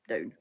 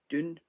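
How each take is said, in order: First: The vowel sounds like 'ow' in cow. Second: The vowel sounds like 'oo' in moon.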